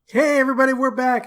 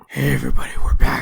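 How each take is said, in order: First: It is said in the speaker's normal voice. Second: It is said in a gravelly Batman impression.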